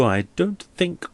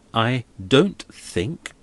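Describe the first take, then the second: First: Said in the usual way. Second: Slow, deliberate stress on "I don't think"; neat emphasis. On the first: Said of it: "with a very nice and neat emphasis". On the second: Acted. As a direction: lay weight on each of "I don't think" slowly. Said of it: "with a very nice and neat emphasis on those two words".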